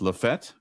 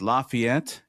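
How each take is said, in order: First: The name is said in a shortened, local form. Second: The name is said in its full, spelled-out form. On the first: The speaker calls it right. "It's Lafette" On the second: The speaker calls it wrong. "it's not pronounced Lafayette"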